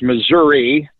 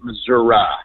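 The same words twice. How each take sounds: First: It is said the way Kansas City people say it. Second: It is said the way southern Missouri people say it. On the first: "If you're in around Kansas City, it is Missouri" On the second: "If you get much further south of here, a lot of people pronounce it Missouri"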